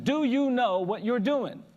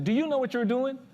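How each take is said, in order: First: Slow, loud, high-pitched challenge; insistent old man. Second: Raised, louder challenging question; stern old man. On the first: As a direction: draw out each word, pressing for an answer. Old man asks again, insistently. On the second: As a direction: confront him like a stern elder. Stern old man confronts him. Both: Retold or imitated.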